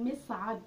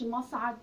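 First: مصعد said as misʕad, with an i on the first syllable, a little slow; the correct form مصعد, opening with mi; correct vowel shown. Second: مصعد said as masʕad, with an open a on the first syllable; the incorrect form مصعد, opening with ma; wrong vowel shown. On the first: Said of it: "اسمه مصعد". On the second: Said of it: "ما أقولش مصعد". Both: Shown as a demonstration.

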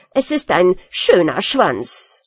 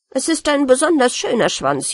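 First: Slow, sulky insistence; sulking rat defending its tail, slow; grumpy insistence. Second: Wounded rat insisting proudly; offended pride. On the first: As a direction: grumble it out stubbornly, slow. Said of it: "sehr mürrisch". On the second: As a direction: stress on besonders, indignant and proud. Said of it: "sehr gekränkt". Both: Acted.

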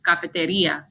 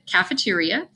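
First: "cafeteria" in Spanish, ka-fe-te-REE-a; Spanish pronunciation. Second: Said in the usual way. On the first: Shown as a demonstration. Spanish teacher shows her class the real word, Spanish pronunciation. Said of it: "the word is actually". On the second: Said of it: "because the word is actually".

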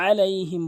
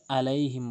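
First: আলাইহিম opened with mid-throat ain; strong ain starting আলাইহিম; correct ain. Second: আলাইহিম with hamza for ain; light আলাইহিম, no throat; common mispronunciation. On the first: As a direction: press the first আ of আলাইহিম in the throat. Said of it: "আলাইহিম বলতে হবে". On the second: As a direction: say আলাইহিম on a plain vowel onset. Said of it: "আইনের জায়গায় হামজা এনে". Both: Shown as a demonstration.

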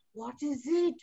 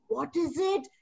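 First: What is it, voice going up at the end; rising question. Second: What is it, voice dropping at the end; falling question. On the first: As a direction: tease the guess with a rising it. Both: Shown as a demonstration.

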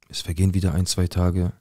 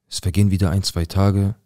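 The two takes are said the same way.

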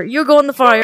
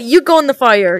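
First: Shouted threat. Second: Said in the usual way. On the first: Real, not acted. Threatening Kenny with the fire, shouted. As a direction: shout it at him.

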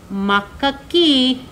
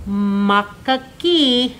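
First: Makaki said slowly, each syllable ma-ka-ki clear; teaching pronunciation. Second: Makaki stretched out very slowly, ma-ka-ki; drawn-out pronunciation. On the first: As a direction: model makaki slowly for the class to repeat. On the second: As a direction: say makaki even slower so children copy it. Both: Shown as a demonstration. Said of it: "Can you say makaki?".

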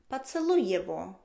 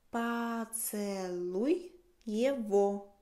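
First: Said in the usual way. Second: Поцелуй его drawn out very slowly; very slow model. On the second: Shown as a demonstration. (muy despacio, Поцелуй его)

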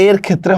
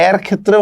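First: এর with a narrow, close e; closed e sound. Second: এর with a wide, open ae; open ae sound. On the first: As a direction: say এর as 'er', like 'say'. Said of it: "সংবৃত". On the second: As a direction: say এর as 'aer', like 'cat'. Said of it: "হবে বিবৃত". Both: Shown as a demonstration.

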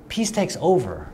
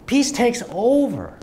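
First: Said in the usual way. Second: Preacher's slow, lifted echo of "Peace takes over."; emphatic repeat. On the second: Shown as a demonstration. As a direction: hammer "Peace" home, slow and raised.

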